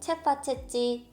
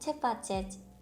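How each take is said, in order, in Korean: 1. 마지막 i가 분명하게 발음됩니다. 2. 마지막 i는 거의 묵음입니다. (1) "이렇게 발음하지 않습니다" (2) "거의 묵음입니다"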